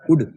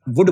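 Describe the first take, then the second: First: It begins directly with an u vowel. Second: It begins with a v or w sound. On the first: "तो बोले उड" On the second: "वुड बोलो"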